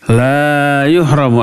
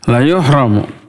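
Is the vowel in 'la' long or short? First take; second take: long; short. First: The vowel in la is held long. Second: The vowel in la is cut short. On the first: He will not be hindered. The speaker calls it wrong. "Kalau dibaca panjang terbalik artinya" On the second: He will surely be hindered. The speaker calls it right. "Dibacanya pendek. Nggak boleh panjang"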